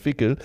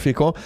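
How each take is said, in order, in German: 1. Der Name wird mit einem deutschen Dialektklang ausgesprochen. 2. Der Name wird mit einem französischen Klang ausgesprochen.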